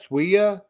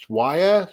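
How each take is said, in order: First: "Swia" said as SWEE-uh; puzzled try at "Swia" with a long "ee". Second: "Swaya" said as SWY-uh, rhyming with fire; puzzled try at "Swaya" with a long "i". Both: Real, not acted. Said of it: "How the fuck do you goddamn say that name?".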